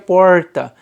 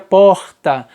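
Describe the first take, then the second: First: It has an inland São Paulo countryside accent. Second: It has a northeastern Brazilian accent. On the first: "Se eu fosse do interior de São Paulo, provavelmente eu falaria porta" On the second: "Se eu fosse nordestino, eu falaria porta"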